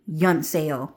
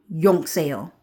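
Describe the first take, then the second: First: "Yun Seo" with "Yun" ending in n, short vowel as in "fun"; Vietnamese pronunciation. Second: "Yong Seo" with a round o and ng; South Korean pronunciation. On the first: Explaining the name to viewers, "Yun Seo" with a short uh and n. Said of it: "but it's Yun". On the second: Giving viewers the Korean form, "Yong Seo" with o and ng. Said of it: "Yong is like a South Korean accent". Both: Shown as a demonstration.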